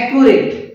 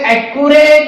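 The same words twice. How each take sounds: First: The final syllable sounds like 'it'. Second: The final syllable sounds like 'ate'. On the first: The speaker calls it right. "हा proper pronunciation आहे" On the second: The speaker calls it wrong. "ॲक्युरेट म्हणायचं नाही"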